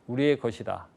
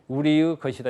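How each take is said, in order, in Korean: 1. 조사는 그냥 'e'로 발음합니다. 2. 조사는 온전한 'ui'로 발음합니다. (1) "이렇게 하지" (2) "일반 회의체에서는 우리의 것이다 이렇게 안 씁니다"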